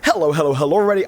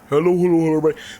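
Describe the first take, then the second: First: It is said in his natural voice. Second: It is said in an exaggerated put-on voice.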